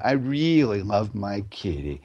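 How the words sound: The voice drops to a low relaxed pitch at the end. The speaker sincerely loves the cat. "I go right down to the home note"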